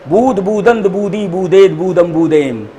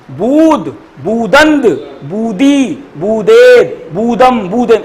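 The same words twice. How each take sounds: First: In one breath. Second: Each form set apart with a pause; word by word. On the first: Teacher showing students the table read in one breath. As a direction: run together without pauses, falling away. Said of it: "एक सांस में पहना". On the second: Teacher modelling a verb table for students, word by word. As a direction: recite the forms one at a time, deliberately. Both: Shown as a demonstration.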